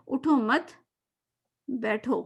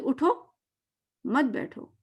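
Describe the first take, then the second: First: It pauses after 'mat', meaning don't get up. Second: It pauses after 'utho', meaning get up.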